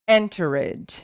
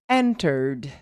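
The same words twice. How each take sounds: First: The ending is said as a separate 'ed' syllable. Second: The ending is said as just a 'd' sound. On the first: The speaker calls it wrong. "we tend to pronounce this ed" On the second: The speaker calls it right. "you will pronounce the sound of D"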